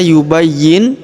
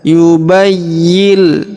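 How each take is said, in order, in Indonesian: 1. Bunyi n di akhir diucapkan dengan jelas. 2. Bunyi n di akhir melebur menjadi bunyi l. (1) "Jadi tidak dibaca yubayyin" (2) "nun sukunnya melebur masuk ke huruf lam"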